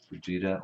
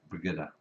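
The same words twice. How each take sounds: First: "Brigida" with a soft g, like a j; tentative "Brigida", g sounded as in gin; soft-g pronunciation. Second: "Brigida" with a hard g, as in give; hard-g pronunciation. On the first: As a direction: say "Brigida" as bri-JEE-da. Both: Shown as a demonstration. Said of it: "how to pronounce her name".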